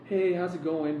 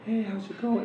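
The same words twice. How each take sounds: First: It is said in a normal speaking voice. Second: It is said in a high falsetto head voice. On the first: "when you talk, it's like" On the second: "when you use your head tone when you talk"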